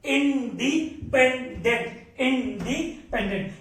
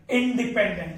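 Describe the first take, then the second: First: "independent" drawn out slowly, syllable by syllable; syllable-by-syllable drill. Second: Said in the usual way. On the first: Real, not acted. Teacher drilling the term into students, slow syllabic delivery. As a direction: break independent into long, separate syllables.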